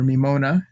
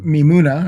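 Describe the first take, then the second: First: "Mimona" with an oh in the middle; "Mimona", oh instead of oo; alternative pronunciation guess. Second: "Mimuna" with an oo in the middle; "Mimuna", stressed oo vowel; first pronunciation guess. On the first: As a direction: say "Mimona" as mee-MOH-na. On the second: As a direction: say "Mimuna" as mee-MOO-na. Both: Shown as a demonstration. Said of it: "I'm not sure how to pronounce it".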